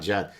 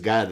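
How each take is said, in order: First: The name starts with a J sound. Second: The name starts with a hard G sound. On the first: The speaker calls it wrong. "It's not Jad" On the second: The speaker calls it right. "so it's Gad"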